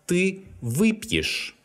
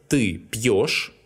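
First: Ты выпьешь, slow, with вы high and stressed; выпьешь with first-syllable stress and a weak е ending; stress on prefix вы. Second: Ты пьёшь with a full, stressed ё; stressed ending ё. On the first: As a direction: hit вы in выпьешь, leave the ending unstressed. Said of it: "must be replaced with «е»". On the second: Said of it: "The endings of such verbs are unstressed". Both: Shown as a demonstration.

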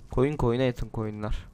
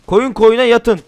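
First: Softer, slower replay of the pun; quiet repeat. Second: Loud pun. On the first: Shown as a demonstration. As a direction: savour the joke quietly. (kelime oyununu alçak sesle yavaşça tekrarlama) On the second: Real, not acted. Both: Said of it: "Yeni espri".

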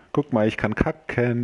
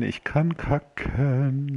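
First: Said in the usual way. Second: Drawn-out and teasing, slow; slow singsong. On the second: Shown as a demonstration. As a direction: stretch each word out slowly.

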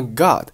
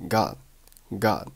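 First: Said in the usual way. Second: "God" said as Gah, d held back; unreleased final d. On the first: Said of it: "God这个单词". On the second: Shown as a demonstration. Teacher shows lost plosion, "God" without its final d. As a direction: stop "God" before the d releases. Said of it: "结尾的的没有爆出来".

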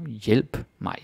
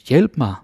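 First: Said in the usual way. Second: Urgent "Hjælp mig", higher and louder; urgent cry. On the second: Shown as a demonstration. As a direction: call "Hjælp mig" out like an emergency. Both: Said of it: "Again, tone of voice".

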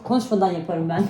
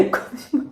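First: Said in the usual way. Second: "Konuşmadan" fısıldayarak, sessizce; "Konuşmadan" kelimesini nefesle fısılda; fısıltı. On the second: Shown as a demonstration. ("Konuşmadan" kelimesini fısıldayarak tekrarla)

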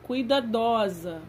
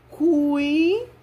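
First: Said in the usual way. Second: Higher, louder "Cuidadosa." broken into syllables; syllabified reading. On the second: Shown as a demonstration. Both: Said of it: "Vamos à leitura".

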